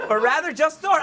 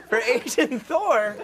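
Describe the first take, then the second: First: "just Thor" shouted higher and louder; loud correction. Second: "Asian Thor" said slowly through a laugh. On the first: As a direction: blurt "or rather, just Thor" loudly. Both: Real, not acted.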